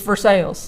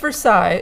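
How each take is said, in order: First: Versailles is said the Kentucky way. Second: Versailles is said the French way.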